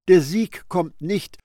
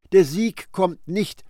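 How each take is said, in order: Both takes have the same delivery.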